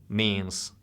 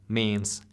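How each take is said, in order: Both takes have the same delivery.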